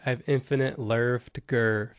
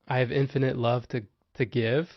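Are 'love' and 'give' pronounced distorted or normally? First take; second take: distorted; normally. First: Love and give have silly 'er' vowels. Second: Love and give have their usual vowels. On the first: "I said it in a stupid way" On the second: "I said I have infinite love to to give"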